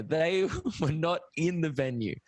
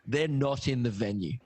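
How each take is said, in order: First: "They" set apart, then "not in the venue" hit firmly; emphatic clarification. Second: "not in the venue" set apart for emphasis; stress on NOT. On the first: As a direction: spell out "They were not in the venue", stressing THEY and NOT. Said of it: "Let's make that very clear". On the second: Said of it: "I wanna stress this". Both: Real, not acted.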